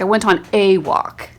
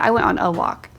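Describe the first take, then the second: First: The word 'a' is stressed. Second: The word 'a' is unstressed. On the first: It insists it really was just one walk. "accenting that word" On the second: It is a plain statement. "That's a totally like unaccented word"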